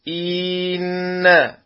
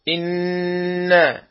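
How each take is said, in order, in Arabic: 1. الحركة التي قبل الحرف المشدد ممدودة. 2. الحركة التي قبل الحرف المشدد قصيرة.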